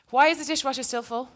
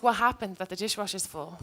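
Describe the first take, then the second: First: Higher and a bit pushier, blaming tone; accusing question. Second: Curious, gentle ask. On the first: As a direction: snap it out like a complaint at home. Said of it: "instead of saying". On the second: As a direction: ask it kindly, with real curiosity. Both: Shown as a demonstration.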